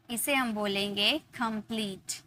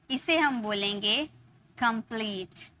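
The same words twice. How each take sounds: The two takes are said the same way.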